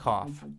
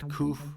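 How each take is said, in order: First: The word rhymes with off, ending in F. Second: The word does not rhyme with off. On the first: The speaker calls it right. "The same vowel you have in off or coffee" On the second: The speaker calls it wrong. "It's not koof or kog"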